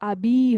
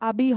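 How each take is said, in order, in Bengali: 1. শেষের স্বরটা লম্বা হয়। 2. শেষের স্বরটা ছোট। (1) "শেষের উচ্চারণটা আমাদের একটু লম্বা হবে" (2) "আবি হবে না"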